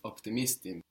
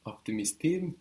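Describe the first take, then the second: First: Optimistim with MIS stressed, falling on "tim"; stress before im. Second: Optimistim with final TIM stressed and pitched higher; questioning optimistim, weight on the closing "tim"; stress on the end. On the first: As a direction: settle optimistim downward after a stressed "mis". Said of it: "putting it actually just before that im". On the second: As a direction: lift the last syllable of optimistim, as if asking. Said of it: "putting the stress on the end". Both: Shown as a demonstration.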